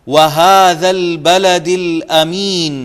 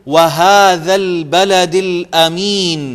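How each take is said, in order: The two takes are said the same way.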